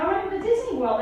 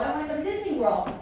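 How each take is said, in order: First: Put-on higher, pleading child; excited kid. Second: Said in the usual way. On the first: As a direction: beg like an eager kid. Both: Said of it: "So I'm like".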